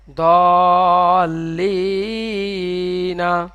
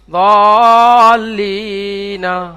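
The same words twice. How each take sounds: First: দলিনা stretched very slowly with a held vowel; slow model reading. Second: দলিনা drawn out slowly, a bit louder; slow model reading. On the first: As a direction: sound out দলিনা for learners. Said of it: "teacher models full word". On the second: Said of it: "teacher models full word again". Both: Shown as a demonstration. (ধীরে টেনে দলিনা)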